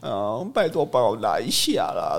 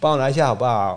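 First: It is said in a cutesy, pleading tone. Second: It is said as a polite, plain request.

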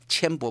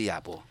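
First: The first syllable is pronounced 'qian'. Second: The first syllable is pronounced 'ya'. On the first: The speaker calls it right. "千博不是亚博" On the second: The speaker calls it wrong. "念错"

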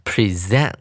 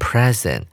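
First: The stress is on the second syllable. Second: The stress is on the first syllable. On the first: It means to show or display. "重音节移到第二音节，我们要念成present" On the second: It means a gift. "当作名词使用的时候念成present"

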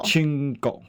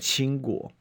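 First: The word is said with Japanese pronunciation. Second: The word is said with Mandarin pronunciation.

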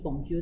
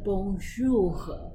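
First: It is said quickly, run together. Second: It is said at a normal, careful speed.

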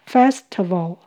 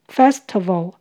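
The two takes are said the same way.

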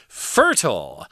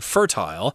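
First: It is said with an American accent. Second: It is said with a British accent.

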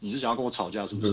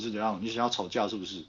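First: It is said in an annoyed, irritated tone. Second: It is said in a flat, even tone.

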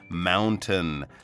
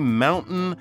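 First: The T is fully pronounced. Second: The T is dropped, American style.

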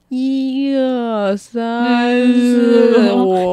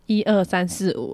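First: It is said slowly with echoing sound. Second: It is said at a normal speed.

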